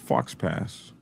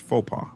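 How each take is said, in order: First: It is said with a hard x and s. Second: It is said with silent x and s. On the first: The speaker calls it wrong. "It looks like Fox Pass" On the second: The speaker calls it right. "but it's faux pas"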